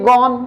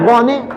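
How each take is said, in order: First: It is said as one syllable, gon. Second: It is said as two syllables, go-ne. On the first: The speaker calls it right. "बोलना चाहिए गॉन" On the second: The speaker calls it wrong. "तो कर रहा गोने गोने"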